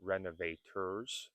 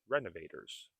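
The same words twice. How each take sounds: First: RENOVATORS spelt out as reno-vay-TURS; careful RENOVATORS with a true T; hard T. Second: RENOVATORS as reno-vay-ders; easy flowing RENOVATORS with a flapped T; soft flapped T. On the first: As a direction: release the T clearly in RENOVATORS. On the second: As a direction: tap the T like a D in RENOVATORS. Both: Shown as a demonstration. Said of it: "Renovators is renovators".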